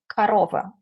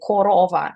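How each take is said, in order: First: The vowel after the stress is weak and reduced. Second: Every vowel is pronounced full and clear. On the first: The speaker calls it right. "after the um, stressed syllable, uh, you can hear something like this Romanian" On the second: The speaker calls it wrong. "We don't say korova like it is uh, written in the text"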